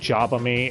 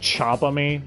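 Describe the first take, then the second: First: The name begins with a j sound. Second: The name begins with a ch sound. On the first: "instead of saying Jabami" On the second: "it sounds like they're saying Chabami with a C H"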